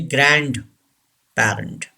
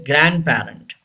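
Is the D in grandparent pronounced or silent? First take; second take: pronounced; silent. First: The D sound is pronounced in the word. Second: The D sound is left silent in the word. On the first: The speaker calls it wrong. "Don't say grandparent" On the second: The speaker calls it right. "D should be silent. The word is grandparent"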